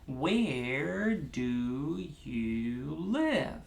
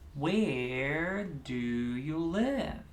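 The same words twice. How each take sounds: First: Slow, with each syllable given its own beat. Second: Medium speed, with three separate beats. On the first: "Let's start with four, one finger, one syllable" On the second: "Let's do three"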